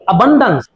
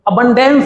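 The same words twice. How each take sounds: First: The ending is said with a reduced 'uh' vowel. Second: The ending is said with a full 'e' vowel. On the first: The speaker calls it right. "इसका होगा अंश" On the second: The speaker calls it wrong. "अबंडेंस नहीं होगा"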